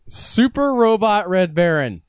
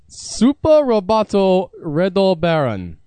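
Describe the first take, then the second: First: It is said with American English pronunciation. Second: It is said with Japanese-style pronunciation. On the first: "in American" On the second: "I'm going to try to pronounce this in its original form"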